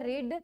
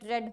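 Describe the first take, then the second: First: The vowel is long, like 'reed'. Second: The vowel is short, like 'red'. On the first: It is the base form of the verb. "Spelling है वो same रहती है" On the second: It is the third form of the verb. "Pronunciation रेड रेड रेड हो जाता है"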